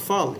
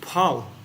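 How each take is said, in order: First: It begins with an f sound. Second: It begins with a breathy p sound. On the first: This is the Hindi way of saying it. The speaker calls it wrong. "in Sanskrit, it's not phal" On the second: This is the Sanskrit way of saying it. The speaker calls it right. "It's pal"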